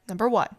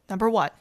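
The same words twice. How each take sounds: No difference in how they are said.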